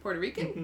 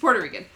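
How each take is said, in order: First: The voice rises at the end. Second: The voice falls at the end. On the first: It sounds like a question. The speaker calls it wrong. "That sounded like a question" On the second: It is a plain statement. The speaker calls it right. "No, he's Puerto Rican"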